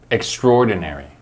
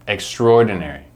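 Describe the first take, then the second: No difference in how they are said.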